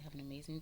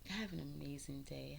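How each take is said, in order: First: Soft whispered goodbye. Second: Said in the usual way. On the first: Real, not acted. Vlogger signs off to viewers in a whisper. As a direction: breathe the farewell as a whisper.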